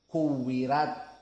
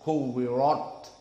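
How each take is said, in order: First: The r is light and thin. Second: The r is heavy and thick.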